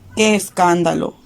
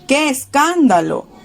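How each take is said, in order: First: It is read flatly, without exclamation. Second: It is said as a lively exclamation. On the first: The speaker calls it wrong. "Hagámoslo primero sin respetarlo" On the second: The speaker calls it right. "Hagámoslo ahora respetándolo entonces"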